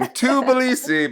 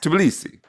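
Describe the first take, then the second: First: The word is said slowly. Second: The word is said very fast. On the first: "It's like saying Tbilisi" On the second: "but you say it really fast"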